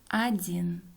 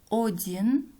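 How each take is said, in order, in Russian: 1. Первый гласный звучит как а. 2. Первый гласный звучит как о. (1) "произносим" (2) "Пишем"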